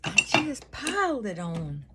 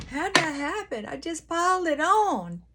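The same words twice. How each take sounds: First: Said in the usual way. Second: Playful high exclaim over the makeup; mock dramatic. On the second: Real, not acted. Laughing at her own heavy makeup, high and playful. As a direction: squeal it, higher and louder. Joking about piling on makeup.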